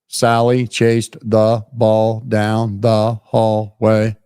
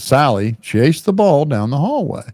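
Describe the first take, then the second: First: Flat, word by word, with no natural flow. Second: Flowing, with natural phrasing and expression. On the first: A machine is reading the text. The speaker calls it wrong. "all this A I goes" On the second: A person is reading the text. The speaker calls it right. "doing it like a human"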